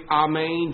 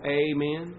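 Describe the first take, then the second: First: "Amen" said ah-MAYN, starting with AH; Greek pronunciation. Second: "Amen" said AY-men, starting with a long AY; English "Amen" with an AY up front; emphasised first syllable. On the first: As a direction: say "Amen" the Greek way, with a broad AH first. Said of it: "In the Greek". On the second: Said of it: "The emphasis on the right syllable". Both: Shown as a demonstration.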